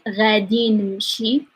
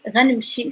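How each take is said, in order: First: Both words are said fully and slowly. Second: The words are merged into one quick word. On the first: "I'm saying it slowly so that you can hear" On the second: "we are lazy and we speak fast"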